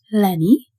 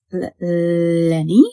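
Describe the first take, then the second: First: Calling out. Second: Slow, halting call into the dark; hesitant call. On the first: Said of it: "Shivani called". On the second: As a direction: call the dog's name unsure and scared. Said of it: "Shivani called again". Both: A narrator's reading.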